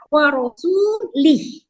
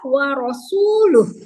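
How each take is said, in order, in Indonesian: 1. Suku kata terakhir punya vokal i sebelum h. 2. Suku kata terakhir punya vokal u sebelum h. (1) "Sementara bacaan yang salah" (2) "Yang benar adalah"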